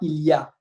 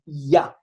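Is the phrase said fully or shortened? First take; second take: fully; shortened. First: It is said fully with every syllable. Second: It is shortened to a single syllable. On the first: "em vez de falar il y a" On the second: "em francês a gente fala ya"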